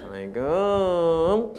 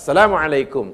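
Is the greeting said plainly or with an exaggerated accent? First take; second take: exaggerated; plain. First: The greeting is said with an exaggerated accent. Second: The greeting is said plainly, without put-on accent. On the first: The speaker calls it wrong. "Tak payah" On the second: The speaker calls it right. "Assalamualaikum tetap Assalamualaikum"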